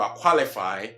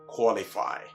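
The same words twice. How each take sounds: First: The first vowel sounds like an open 'ah'. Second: The first vowel sounds like a short rounded 'o'. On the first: The speaker calls it wrong. "which is also never qualify" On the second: The speaker calls it right. "but what? Qualify"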